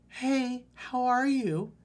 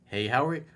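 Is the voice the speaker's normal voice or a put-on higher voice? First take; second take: put-on voice; normal voice. First: It is said in a put-on higher girl voice. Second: It is said in the speaker's ordinary voice.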